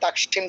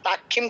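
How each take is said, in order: First: The cluster is pronounced as a clear 'ksh'. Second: The cluster is pronounced like a Bengali 'kh'. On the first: The speaker calls it right. "তাকসিম করবো" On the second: The speaker calls it wrong. "Bangla যেমন ক্ষীয় উচ্চারণ তাক্ষিম করতাম সেরকম তো করবো না"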